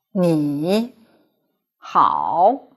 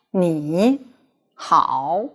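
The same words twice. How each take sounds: First: 你 and 好 both said with a full low dipping third tone; 你 dips low, then 好 dips again, sounding awkward; deliberately unchanged 你好, two dipping tones; original third tones. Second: 你 rising as a second tone, then 好 dipping low; easy 你好 with 你 rising into a low 好; changed to second tone. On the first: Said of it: "if you keep the original tone". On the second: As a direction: demonstrate the smooth sandhi version of 你好. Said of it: "change the first third tone into second tone". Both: Shown as a demonstration.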